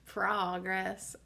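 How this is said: It is said with an American 'praw' first vowel. "we in Pennsylvania, it's all about progress... P R A W G R E S S"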